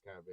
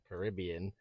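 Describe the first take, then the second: First: It is said the way English people say it. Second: It is said the way Americans say it. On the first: "If you're English, it's Caribbean" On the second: "If you're from the U S, the, the Caribbean"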